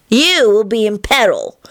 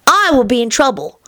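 First: Put-on child's voice leaning on "You"; high, matter-of-fact, "You" singled out; practical, stress on YOU. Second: Put-on child's voice leaning on "I"; high, matter-of-fact, "I" singled out; practical, stress on I. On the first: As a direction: stress "You" to set it against "I". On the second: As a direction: stress "I" to set it against "You". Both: A narrator's reading. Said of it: "responded in a practical voice".

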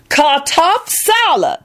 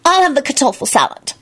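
First: Much higher, slow, pointed; loud Lucretia. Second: Higher, irritable; irritable order. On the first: Lucretia correcting Solange, high and slow. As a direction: correct it slowly and proudly. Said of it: "Lucretia informed them loudly". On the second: Solange ordering from the waiter, higher and irritable. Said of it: "she informed the waiter irritably". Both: A narrator's reading.

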